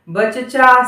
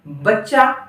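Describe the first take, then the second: First: A short vowel separates the two ch sounds. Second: The ch is held as one doubled consonant. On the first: The speaker calls it wrong. "नहीं बोलना है" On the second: The speaker calls it right. "जैसे हमने कहा"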